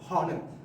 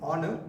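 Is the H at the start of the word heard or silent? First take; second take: heard; silent. First: The word begins with an audible H sound. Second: The word begins with a vowel; the H is silent. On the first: The speaker calls it wrong. "not honor. The H should not be uh, uh, heard" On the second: The speaker calls it right. "should be pronounced as honor"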